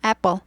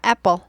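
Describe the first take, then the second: No difference in how they are said.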